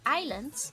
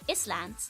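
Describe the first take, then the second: First: It is said without an s sound. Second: It is said as 'is land', with an s.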